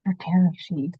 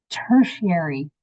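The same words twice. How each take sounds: First: "Tertiary" said as ter-tair-shee, syllables out of order; stumbling mispronunciation. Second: "Tertiary" said carefully as TER-shee-air-ee, a little slow; corrected pronunciation. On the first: Real, not acted. Teacher fumbling a hard word for her students, unsure. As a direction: fumble "Tertiary" before checking it. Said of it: "I can't say that word". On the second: Shown as a demonstration. Teacher models the word for students after checking, careful. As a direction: sound out "Tertiary" properly after looking it up. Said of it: "let's see how we pronounce this then".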